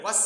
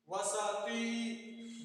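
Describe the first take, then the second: First: "वस" with no vowel after the s, cut short; wrong reading with silent s. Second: "वसती" very slowly, an open a after the s: va-sa-ti; correct pronunciation. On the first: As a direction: say "वस" clipped, the s closed with no vowel. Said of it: "आप सीन को जो है साकिन कर रहे हैं". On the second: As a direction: spell out "वसती" slowly in three syllables, va-sa-ti. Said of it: "This is the correct pronunciation". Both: Shown as a demonstration.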